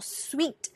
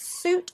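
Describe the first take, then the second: First: It sounds like one syllable, sweet. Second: It sounds like one syllable, suit. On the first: The speaker calls it wrong. "or sweet" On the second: The speaker calls it right. "It's suit"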